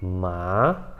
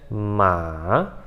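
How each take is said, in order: First: "ma" starting low and rising; rising "ma" with no dip first; second tone, rising. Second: "ma" dropping, lingering low, then rising; long "ma" with a dip in the middle; third tone, dipping. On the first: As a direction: begin "ma" low and slide it up. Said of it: "você vai subir". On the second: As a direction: let "ma" sink before it climbs. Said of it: "Você meio que desce". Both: Shown as a demonstration.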